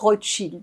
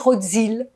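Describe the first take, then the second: First: The middle consonant is said as a sh sound. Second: The middle consonant is not a sh sound. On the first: The speaker calls it right. "si on veut bien le prononcer, on doit dire Rothschild" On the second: The speaker calls it wrong. "la plupart des gens ne le savent pas, ils vont le prononcer Rothschild"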